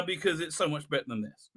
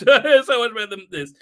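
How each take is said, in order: First: Said in the usual way. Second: Louder repeat, laughing as you say it; laughing emphasis. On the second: Real, not acted.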